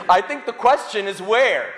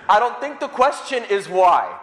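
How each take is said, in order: First: Amused punchline through a laugh; chuckling as he lands the joke. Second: Laughing. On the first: Preacher teasing the congregation, laughing. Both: Real, not acted. Priest jokes about smashed window.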